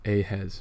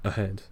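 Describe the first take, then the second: First: It is said as two separate words. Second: It is said as one single word. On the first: Someone sees a head up in front. The speaker calls it right. "As in two words" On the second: Someone sees somebody further forward. The speaker calls it wrong.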